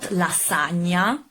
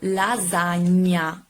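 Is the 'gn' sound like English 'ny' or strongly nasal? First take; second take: English ny; strongly nasal. First: The 'gn' is a light English 'ny' sound. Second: The 'gn' is a strong, nasal ñ sound. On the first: The speaker calls it wrong. "not lasagna" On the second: The speaker calls it right. "when you pronounce correctly the, the sound ñ"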